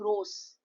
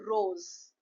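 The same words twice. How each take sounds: First: The middle consonant is a hissing s sound. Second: The middle consonant is a buzzing z sound. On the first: The speaker calls it wrong. "You are not saying rose" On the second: The speaker calls it right. "you are saying rose"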